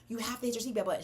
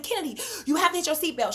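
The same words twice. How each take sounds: First: Quieter, controlled instruction; steady yourself and tell the child softly; re-enacted composed direction; calmed down. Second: Fast, raised-pitch urgent instruction; re-enacted hurried plea; urgent order. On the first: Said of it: "you gotta calm down". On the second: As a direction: rush it out to a child in danger. Urgent order to daughter in smoking car.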